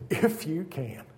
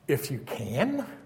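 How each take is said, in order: First: It is said as an emphatic exclamation. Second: It is said as a rising question.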